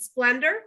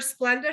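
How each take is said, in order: First: The word ends with an added r sound. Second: The word ends in a plain vowel, no r.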